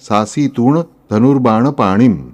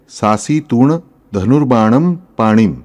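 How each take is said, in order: First: No 'm' sound follows 'dhanurbaan'. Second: An extra 'm' sound follows 'dhanurbaan'. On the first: The speaker calls it right. "पर वास्तव में क्या कहना चाहिए?" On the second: The speaker calls it wrong. "बहुत लोग गलती से क्या कहते हैं?"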